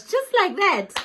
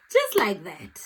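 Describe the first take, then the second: First: Much higher, amazed; awed quote. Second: Said in the usual way. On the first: Retold or imitated. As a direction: gush it in disbelief. Quoting her awe at the lady.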